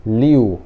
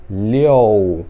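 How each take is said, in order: First: "liu" said as "li-u", straight from i to u; "liu" read as it is spelt, "li-u"; no middle O. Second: "liu" said as "li-ou", drawn out; slow "liu" sounding like "leo"; O in the middle. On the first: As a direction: say "liu" without any o sound. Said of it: "você não vai ler liu". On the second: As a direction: slip an o into "liu": "liou". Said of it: "como se tivesse um O no meio". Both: Shown as a demonstration.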